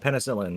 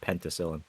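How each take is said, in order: First: It is said without a 't' sound. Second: It is said with a 't' sound. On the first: The speaker calls it right. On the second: The speaker calls it wrong. "not penticillin"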